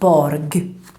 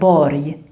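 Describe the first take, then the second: First: The final rg ends with a hard g. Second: The final rg sounds like an English y. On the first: The speaker calls it wrong. "and not borg" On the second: The speaker calls it right. "it should sound like borg"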